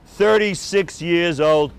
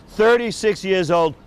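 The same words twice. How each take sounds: The two takes are said the same way.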